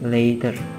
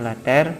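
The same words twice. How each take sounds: First: The word is said with English pronunciation. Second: The word is read exactly as it is spelled. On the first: The speaker calls it right. "tapi kita baca dengan later" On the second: The speaker calls it wrong. "tulisan later di sana kita tidak baca later"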